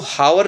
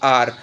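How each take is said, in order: First: The word begins with an h sound. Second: The word begins with a vowel sound. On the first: The speaker calls it wrong. "इसको हावर नहीं बोलते हैं" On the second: The speaker calls it right. "इसको बोलते हैं आर"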